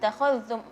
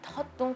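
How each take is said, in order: First: The kh sound is clearly pronounced at normal pace. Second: The kh sound is dropped, said too quickly. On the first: The speaker calls it right. "usahakan kualitasnya tetap sama" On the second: The speaker calls it wrong. "kha-nya hilang suaranya, takhadtum karena terlalu cepat"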